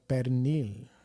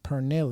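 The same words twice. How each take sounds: First: The word is said with Spanish sounds. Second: The word is said with English-style spelling sounds. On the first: "instead of" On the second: "phonetically saying like these these Spanish words"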